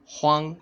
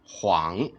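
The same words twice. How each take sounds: First: The pitch stays high and level. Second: The pitch dips low and then rises. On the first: "first tone" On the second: "third tone"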